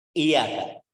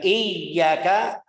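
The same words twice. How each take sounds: First: Iyaka with a single y; iyaka read short, no doubling; wrong reading. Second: Slow iyaka with held yy; doubled y. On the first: Teacher shows iyaka meaning sunlight. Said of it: "bukan iyaka". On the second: Teacher models the right iyyaka, meaning God. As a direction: stretch the yy of iyaka. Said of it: "ai maksudnya Tuhan kita". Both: Shown as a demonstration.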